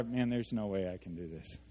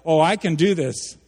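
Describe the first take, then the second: First: Low and soft, giving up; quiet despairing mutter; defeated. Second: Loud, cocky boast; brash self-assured claim; overconfident. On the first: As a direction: sigh it out like it's hopeless. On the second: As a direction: sell it like you've got this all handled. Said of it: "drawn to one pole or the other". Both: Shown as a demonstration.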